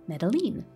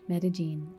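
First: The double L sounds like an L. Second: The double L sounds like a Y.

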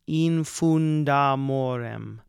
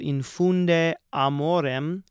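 First: The final vowel is dropped, joining the words. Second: Both words are said separately with the final vowel. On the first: "becomes infundamorem. We strike the final E of infunde" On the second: "this is an example of eliding these two syllables"

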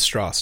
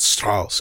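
First: The name is given an English-style pronunciation. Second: The name is given a German-style pronunciation. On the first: The speaker calls it right. "specifically pronounce Strauss, because he didn't want to be German anymore" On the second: The speaker calls it wrong. "not Strauss"

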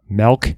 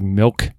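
First: The word is said in a Midwestern way. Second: The word is said in a standard way.

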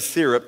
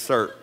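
First: It is said with two syllables, non-East Texas. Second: It is said with one syllable, East Texas style.

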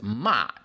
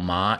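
First: The pitch falls sharply from high to low. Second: The pitch rises from mid to high. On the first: It means scolding someone. "whereas ma means like telling people off, scolding" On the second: It means feeling numb. "The second tone ma, feeling numb"

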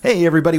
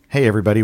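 First: The greeting sounds bright and enthusiastic. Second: The greeting sounds flat and unenthusiastic.

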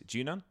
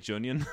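First: The name has no 'yun' sound like onion. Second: The name sounds like onion with a J. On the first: The speaker calls it right. "I said this wrong for years" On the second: The speaker calls it wrong. "I used to say Junion. Like an onion with a J"

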